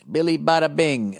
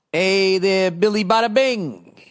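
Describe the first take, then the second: First: Said in the usual way. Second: Higher-pitched, showy salutation; hammed-up greeting. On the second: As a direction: call out the name with a lightly put-on flourish. Reading out a listener's greeting.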